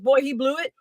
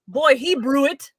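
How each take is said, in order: First: Blew is said with a clear L sound. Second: Blew is said with an R sound. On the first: "he goes" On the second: "If you listen carefully, he's saying ... He's saying it like that"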